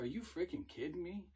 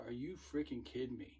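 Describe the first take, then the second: First: Pitched higher in exasperated disbelief; incredulous. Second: Cannot believe what he just heard; retold disbelief. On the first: Retold or imitated. Recruiter hearing it was an April Fools joke, exasperated disbelief. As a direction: thrown by the prank, voice jumps up. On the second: Recruiter to recruit who smacked his girlfriend, stunned anger.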